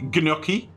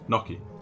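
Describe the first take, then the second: First: The word starts with a G sound. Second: The word starts with an N sound. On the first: "Do you pronounce the G?" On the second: "That's what I said"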